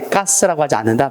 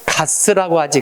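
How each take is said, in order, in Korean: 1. 첫 자음은 경음이에요, 평음이 아니에요. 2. 첫 자음은 평음이에요, 경음이 아니에요. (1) "하지 않는다"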